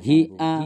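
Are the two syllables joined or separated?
joined. The two syllables run together without a break. The speaker calls it right. "bacanya sambung"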